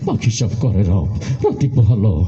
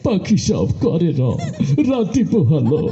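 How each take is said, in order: First: The line is recited in a tough, forceful voice. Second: The line is recited in a weeping, sobbing voice. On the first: The reciter is threatening. "কোন সময় ঘুষি একটা মেরে দিবি বলা যায় না" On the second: The reciter is sad. "সে কানতে কানতে কয়"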